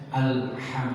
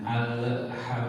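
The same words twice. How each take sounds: First: "alham" with a clean, unbounced l; correct alham. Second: "alham" with the l bounced, drawn out slowly; wrong alham. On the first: Teacher gives students the correct reading, calmly. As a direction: say "alham" the right way, l held smooth. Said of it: "Jadi harusnya". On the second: Teacher warns reciters against the bounced l, slow. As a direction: show the mistake: bounce the l in "alham". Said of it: "nah itu salah". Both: Shown as a demonstration.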